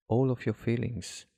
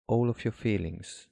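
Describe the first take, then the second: No difference in how they are said.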